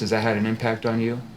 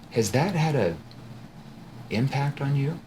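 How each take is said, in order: First: It is said in a flat, monotone voice. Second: It is said slowly in a concerned tone. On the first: The question draws only surface-level answers. The speaker calls it wrong. "monotone voice" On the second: The question makes the listener feel emotional. The speaker calls it right. "my tone shifts into that concerned tone"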